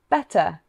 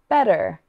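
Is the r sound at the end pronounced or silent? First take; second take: silent; pronounced. First: The final r is silent, a non-rhotic accent. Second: The final r is pronounced, a rhotic accent. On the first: "the first was your own accent" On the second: "the second was with a rhotic accent"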